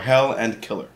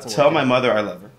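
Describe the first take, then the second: First: The phrase is said quickly, with the words run together. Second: The phrase is said at a normal, careful pace.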